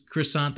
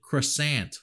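First: Said in the usual way. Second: "Croissant" with a hard American "ant" ending; un-French "croissant". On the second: Pretend. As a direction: say "Croissant" as cruh-SANT, rhyming with pant. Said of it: "they should just have him be like".

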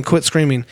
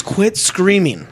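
First: Said in the usual way. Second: Higher, slow, drawn-out call; calling across a distance. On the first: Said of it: "he's going". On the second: Retold or imitated. Man to screaming girlfriend way over there, mock calling out. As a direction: stretch it out as if calling to someone far off. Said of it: "she's way over there".

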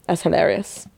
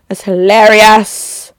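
First: Much softer, under the breath; quiet throwaway; soft aside. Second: Slow, stretching "hilarious"; slow, amused emphasis on "hilarious"; drawn out. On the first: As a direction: murmur it to yourself. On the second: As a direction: savour the word "hilarious". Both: Real, not acted. Repeats the remark, second louder.

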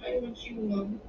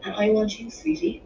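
First: Quiet, wobbly little plea to Mum; faltering child. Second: Fuller, louder motherly answer; fond reassurance to a child; reassuring mother. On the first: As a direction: falter softly, close to tears. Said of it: "Her voice was faltering". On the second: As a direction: stress the words back lovingly, lifting on sweetie. Mother answers her upset child. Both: A narrator's reading.

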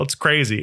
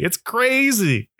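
First: Said in the usual way. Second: "crazy" drawn out slow and much higher; stretched-out disbelief. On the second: Acted. To listeners, about coworkers backing him: slow, high disbelief. Repeated exclamation about Trump supporters.

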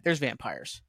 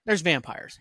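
First: Quieter, flat repeat of the same line; deadpan aside. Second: Said in the usual way. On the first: Shown as a demonstration. Reviewer mocking the show's premise, deadpan aside. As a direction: throw it away dryly, as a mock-bored shrug. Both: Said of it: "How about that?".

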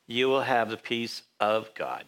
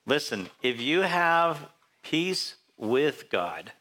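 First: Slow payoff, "of" in "peace of God" set firmly against "with"; stress on of. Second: Slow and deliberate, leaning on "with" in "peace with God"; stress on with. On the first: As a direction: land "the peace of God" slowly with a falling close. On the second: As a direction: draw out "peace with God" slowly, rising at the end as the setup. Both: Shown as a demonstration.

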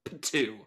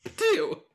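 First: A light spitting noise; mild spitting. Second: Loud high spit sound; spitting. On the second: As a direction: spit it out with force. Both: Acted. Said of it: "I spit on his grave".

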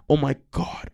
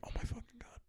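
First: Stretched, emphatic outcry; acted exclamation. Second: Very soft, voiceless whisper; hushed, overcome aside; awed whisper. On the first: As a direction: exclaim it in mock anguish. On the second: Retold or imitated. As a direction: whisper it in mock anguish. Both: Acting out a craving reaction.

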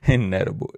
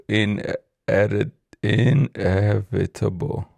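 First: "Inedible" said as in-ED-ible, a wrong word for inevitable; mispronounced inevitable. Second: "Inedi-, inevitable" drawn out slowly, fixing the word syllable by syllable; slow down and sound out "inevitable" carefully; slow careful correction. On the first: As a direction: say "Inedible" as if it were the right word. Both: Real, not acted. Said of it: "I can't pronounce that shit for nothing".

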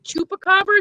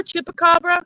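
First: "Chupacabra" begun with "choo"; higher, querying "CHOO-pacabra"; "chupa" pronunciation. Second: "Chupacabra" begun with "chip"; higher, querying "CHIP-acabra"; "chippa" pronunciation. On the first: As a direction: say the first syllable as "choo", questioning. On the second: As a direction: say the first syllable as "chih", questioning. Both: Shown as a demonstration. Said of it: "How do you say it?".

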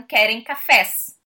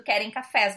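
First: Very slow, a bit louder; slow deliberate. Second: Said in the usual way. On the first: Retold or imitated. Brazilian diner slowly repeating what the men understood. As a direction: spell it out slowly, leaning on cafés. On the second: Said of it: "Eu poderia ter entendido".

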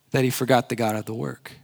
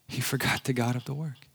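First: Said in the usual way. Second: He forgot the God of the work dropped much softer, almost under the breath; soft echo. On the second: Real, not acted. Preacher to congregation, repeating the point in a soft hush. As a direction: let "forgot" land as a hushed repeat.

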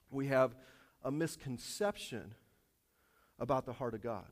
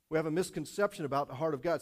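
First: Drawn out and weighty, word by word; deliberate slow preacher emphasis. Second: Said in the usual way. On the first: Shown as a demonstration. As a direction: lay each word down slowly for emphasis.

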